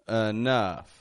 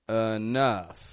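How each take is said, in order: The two takes are said the same way.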